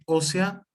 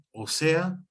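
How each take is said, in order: First: Ósea as one word, Ó stressed; stress on first syllable of ósea. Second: Ósea said as the connector "o SE-a"; stress on "se" in ósea. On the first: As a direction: say ósea slowly with the opening Ó stressed. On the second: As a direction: move the stress in ósea onto SE. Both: Shown as a demonstration. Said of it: "para que entiendan la distinción".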